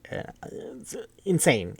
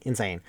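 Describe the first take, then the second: First: Slow, high, stretched-out insane; drawn-out amazement. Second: Said in the usual way. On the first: Real, not acted. Marvelling to listeners at the movie's ending, stretched slowly. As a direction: let the word insane hang in disbelief. Reacting to the scene's gore.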